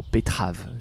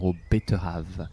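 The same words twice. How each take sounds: First: It is said a little faster, reduced. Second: It is said at a normal pace.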